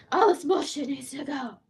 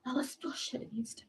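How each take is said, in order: First: Said in the usual way. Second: Whispered repeat of her complaint. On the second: Real, not acted. Repeats the line, this time whispered.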